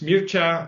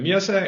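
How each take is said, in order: First: The name is said with a Romanian pronunciation. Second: The name is said with a Danish pronunciation. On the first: "In Romanian" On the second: "it's usually in Danish"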